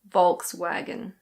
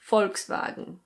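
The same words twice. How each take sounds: First: It is said in a British accent. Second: It is said in a German accent. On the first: "the most common one is Volkswagen" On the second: "in German, it's pronounced Volkswagen"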